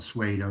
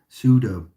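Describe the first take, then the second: First: The word is said with a W sound. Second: The word is said without a W sound. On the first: The speaker calls it wrong. "not pseudo, there's no W, I always say that wrong" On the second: The speaker calls it right. "there's no W"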